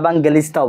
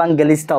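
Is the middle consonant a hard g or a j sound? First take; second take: hard g; hard g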